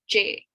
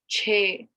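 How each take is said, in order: First: The ch sound is sharp and hard. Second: The ch sound is soft with breathy air. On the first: The speaker calls it wrong. "it's not a sharp one. It's not che" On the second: The speaker calls it right. "there's like a h sound"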